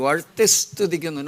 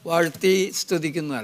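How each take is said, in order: First: The s starting the second word is clearly heard. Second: The s starting the second word is barely heard. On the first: The speaker calls it right. "That the right way to do it" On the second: The speaker calls it wrong. "Not ... അല്ല"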